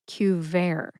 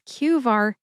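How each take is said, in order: First: The last syllable rhymes with air. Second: The last syllable rhymes with far. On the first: The speaker calls it wrong. "not Qvare. It's not like Advair" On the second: The speaker calls it right. "It is Qvar"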